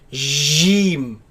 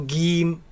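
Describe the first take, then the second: First: The first sound is a loose, soft j. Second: The first sound is a hard g. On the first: "Some people they loosen this letter and say Jim, J, and that is incorrect" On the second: "it is incorrect to pronounce it as Gim with a G, G sound"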